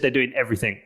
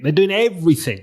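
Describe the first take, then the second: First: It is said flatly, with no emphasis. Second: It is said with strong, lively emphasis. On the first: The speaker calls it wrong. "There was no emphasis" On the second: The speaker calls it right. "bring it to fucking life"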